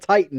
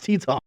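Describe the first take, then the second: First: The name sounds like the word 'titan'. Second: The name does not sound like 'titan'. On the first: The speaker calls it wrong. "It's not Titan" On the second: The speaker calls it right. "it's Teton"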